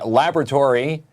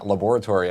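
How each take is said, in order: First: It is said the way people in the States say it. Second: It is said the way people in Canada say it. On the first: "laboratory in the States" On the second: "laboratory up here in Canada"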